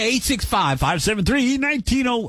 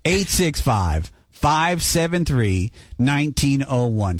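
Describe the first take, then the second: First: The number is said at normal, quick speed. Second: The number is said slowly.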